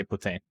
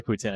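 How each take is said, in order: First: "Putin" in French accent, ending in a nasal vowel; Quebec French "Putin", final n swallowed into the vowel. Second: "Putin" with a clear English final n; "Putin" ending in -in, no French nasal; English pronunciation. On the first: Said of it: "I say Putin". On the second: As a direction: say "Putin" the plain anglophone way. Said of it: "I don't say Putin". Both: Shown as a demonstration.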